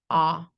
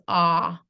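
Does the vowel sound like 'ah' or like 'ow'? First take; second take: ah; ah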